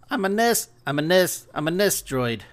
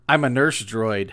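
First: It is said in an imitated New Zealand accent. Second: It is said in the speaker's ordinary accent.

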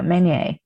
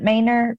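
First: The name is said without a final r sound. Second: The name is said with a final r sound. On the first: This is the original French form of the name. "but it's French" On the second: This is a rural, anglicized form of the name. "My family was hella country and they pronounced it Maynard"

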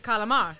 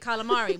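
First: The word ends without the final vowel. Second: The word ends with a full final vowel. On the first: This is how Italians say it. "but Italians say calamar" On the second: This is how people here say it. "We say calamari"

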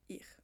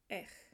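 First: The word starts with an 'ee'-like vowel. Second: The word starts with an 'eh'-like vowel. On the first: This is the speaker's own Swiss German dialect. "and my dialect, I would say ich" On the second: This is a friend's different Swiss German dialect. "she pronounces it more like ech"

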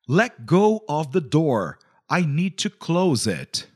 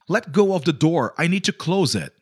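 First: It is said more slowly. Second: It is said at normal speed.

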